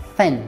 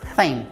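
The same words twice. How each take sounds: No difference in how they are said.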